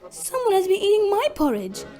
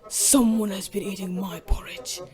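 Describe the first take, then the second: First: It is said in a medium-sized voice. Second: It is said in a great big voice.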